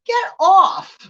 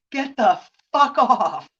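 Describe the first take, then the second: First: High, loud hammed-up get off; mock yell. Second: Mock firm. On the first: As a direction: shriek it off. Acted shove-off of grabber. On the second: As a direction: say it slow and done with it. Acted shove-off, firmer.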